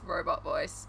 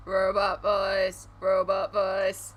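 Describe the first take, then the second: First: Said in the usual way. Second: Slow, level robot delivery; monotone robot voice. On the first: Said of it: "to emphasize robot voice". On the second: Shown as a demonstration. Streamer emphasizing the effect, monotone robot voice. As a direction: drone ROBOT VOICE on one note. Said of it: "talk a little bit more monotone".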